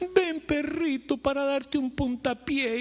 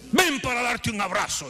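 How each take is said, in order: First: It is said in a pleasant, friendly tone. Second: It is said in a harsh, threatening tone.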